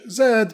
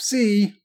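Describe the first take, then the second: First: It is said the British way, as zed. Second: It is said the American way, as zee.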